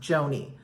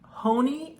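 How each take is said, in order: First: The name begins with a J sound. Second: The name begins with an H sound. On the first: The speaker always says it this way. "I've always, always pronounced it Joni" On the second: Some people say it this way. "I've heard it called pronounced Honey"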